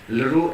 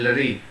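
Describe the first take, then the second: First: The vowel ends with an 'oo' sound. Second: The vowel ends with an 'ee' sound. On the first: "Lru and Lri" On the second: "some people are pronouncing this as Lri"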